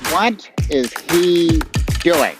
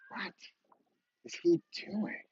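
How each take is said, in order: First: It sounds disapproving, as if he's doing something dumb. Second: It sounds curious, maybe a little envious.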